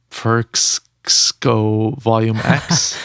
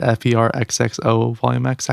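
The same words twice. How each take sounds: First: "[name]" said slowly as one word, fer-kss-oh; read as a word. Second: "F E R X X O" spelled letter by letter. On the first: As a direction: sound out "[name]" as a single unsure word. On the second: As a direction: spell "F E R X X O" one letter at a time. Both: Shown as a demonstration. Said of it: "Or is that how you pronounce it?".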